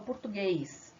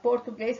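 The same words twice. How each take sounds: First: The unstressed o is said as a u. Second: The unstressed o is said as a clear o. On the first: This is how Brazilians actually say it. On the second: This follows the spelling. "em vez de falar"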